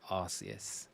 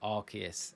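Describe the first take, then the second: First: The name begins with a soft 'arse' sound. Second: The name begins with a hard 'ark' sound. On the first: The speaker calls it wrong. "You can't call it the Arse phone" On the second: The speaker calls it right. "It has to be the Arc phone"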